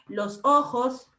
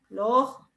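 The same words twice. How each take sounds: First: The s sounds are fully pronounced. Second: The s sounds are aspirated or dropped. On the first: "En vez de decir" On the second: "No pronuncia la S"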